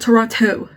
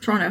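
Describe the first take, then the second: First: The name is said a different, non-local way. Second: The name is said the local Toronto way. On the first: This is not how a person from Toronto says it. The speaker calls it wrong. "Not Toronto" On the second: This is how a person from Toronto says it. The speaker calls it right. "how she says it"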